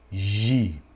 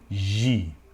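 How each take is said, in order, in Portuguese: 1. Começa com som de zh suave. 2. Começa com som de zh suave.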